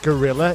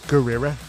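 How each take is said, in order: First: It is said with a plain English accent. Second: It is said with a Japanese accent.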